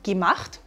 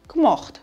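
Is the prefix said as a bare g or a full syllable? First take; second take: full syllable; bare g. First: The prefix is a full syllable with a vowel. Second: The prefix is reduced to a bare g sound.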